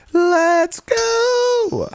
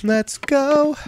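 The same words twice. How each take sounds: First: Highest, loud stretched cheer; all-out victory cheer; peak hype cheer. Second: High-pitched gamer hype; hype cheer. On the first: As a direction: scream it to the rafters. Peak of the celebration. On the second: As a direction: let it rip like you just won. Celebrating a win. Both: Real, not acted.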